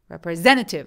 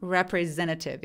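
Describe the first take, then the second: First: The word carries a single main stress. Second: The word is split with two stresses. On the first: The speaker calls it wrong. "representative 하면 이상하니까" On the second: The speaker calls it right. "이런 식으로 조금 나눠서 발음을 하기도 하거든요"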